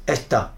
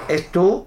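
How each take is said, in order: First: The final vowel is open, almost an a. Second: The final vowel is a closed o sound. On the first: "quand il s'ouvre beaucoup, c'est presque A" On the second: "il peut être fermé"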